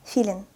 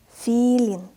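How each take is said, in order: First: Quick, short "Филин"; fast reading. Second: Drawn-out "Филин"; slow reading. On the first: Teacher reads as a native speaker, "Филин" said fast. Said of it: "I will read this word fast". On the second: Teacher models the word for beginners, "Филин" read slowly. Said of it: "I will read this word slowly". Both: Shown as a demonstration.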